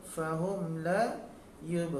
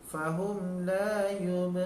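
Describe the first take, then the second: Both takes have the same delivery.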